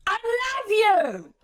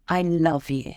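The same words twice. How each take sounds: First: Much higher, slow, frustrated and blunt; exaggerated angry take; angry, blunt I love you. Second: Softer, loving and soothing; soft, tender I love you. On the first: Speaker trainer demonstrating the same sentence, exaggerated angry. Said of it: "anger, frustration, blunt directness". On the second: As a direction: speaker trainer showing the soothing way, tender and soft. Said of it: "it's beautiful, it's soothing, there's warmth to it". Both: Shown as a demonstration.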